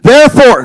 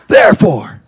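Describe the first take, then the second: First: The word is shouted very loudly. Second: The word is said at normal volume.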